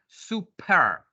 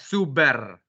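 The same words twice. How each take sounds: First: The middle consonant is a p sound. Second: The middle consonant is a b sound. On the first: The speaker calls it right. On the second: The speaker calls it wrong. "But don't say that super"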